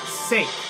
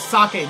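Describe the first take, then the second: First: It does not end in a clear 'e' vowel. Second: It ends in a clear Spanish-like 'e' vowel. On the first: The speaker calls it wrong. "not sake" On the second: The speaker calls it right. "a vowel ends the syllable ... the vowels are pronounced as a, e, i, o, u, like in Spanish"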